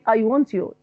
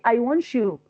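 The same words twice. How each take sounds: First: The t and y are said separately. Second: The t and y merge into one sound. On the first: "I don't say I want you" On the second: "but I say I want you to stop talking"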